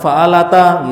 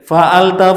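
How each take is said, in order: First: The final vowel after t is long. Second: The final vowel after t is short. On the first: The speaker calls it wrong. "Kalau ta-nya dipanjangin" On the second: The speaker calls it right. "Ta yang di atas pendek ya"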